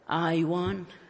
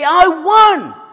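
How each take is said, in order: First: It is said quietly and flatly. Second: It is said loudly and excitedly. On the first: The speaker calls it wrong. "Does he say it in this way?" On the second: The speaker calls it right. "very excited and he wants to declare his victory"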